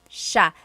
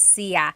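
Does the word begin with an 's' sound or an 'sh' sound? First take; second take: sh; s. First: The word begins with an 'sh' sound. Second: The word begins with a plain 's' sound. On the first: This is the usual form in central Luzon. "it's sha, sha. The S I Y combination makes that sha, sha sound" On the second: This form is used only in some regions. "It looks like it should be pronounced sia"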